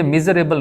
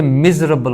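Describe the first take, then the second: First: "मिजरेबल" as mi-zuh-RAY-bul; mispronunciation. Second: "मिजरेबल" as MIZ-ruh-bul; correct pronunciation. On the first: Teacher rejects the error, mispronounced "मिजरेबल" as mizuh-ray-bul. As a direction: sound four syllables in "मिजरेबल". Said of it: "ये मिजरेबल नहीं होता". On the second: Teacher corrects students, careful "मिजरेबल" as mizruhbul. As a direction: squeeze "मिजरेबल" to three syllables. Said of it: "इस ए को ख़त्म कर दे". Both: Shown as a demonstration.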